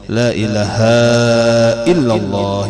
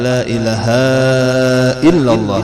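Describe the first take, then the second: First: The long vowel is held for its full length. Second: The long vowel is cut short. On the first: The speaker calls it right. "haknya di mana panjangnya" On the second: The speaker calls it wrong. "salahnya sih. dirang kada panjang haknya itu"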